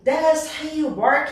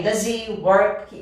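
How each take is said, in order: First: DOES HE WORK slow and higher, each word separate; emphatic intonation. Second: DOES HE WORK slowly, still glued as "duh-zee work"; slow DOES HE WORK down without restoring the H; slow but linked. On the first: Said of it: "dar uma entonação de ênfase". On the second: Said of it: "O devagar vai sair". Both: Shown as a demonstration.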